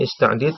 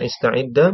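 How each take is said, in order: First: The word ends on a consonant, no vowel. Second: The word ends with a short a vowel.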